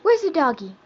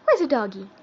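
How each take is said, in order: First: Loud, high, bright prompt to a pet. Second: Said in the usual way. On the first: Real, not acted. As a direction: ask eagerly to coax a bark. Prompting the bird to bark.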